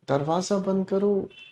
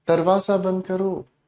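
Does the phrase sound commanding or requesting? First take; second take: requesting; requesting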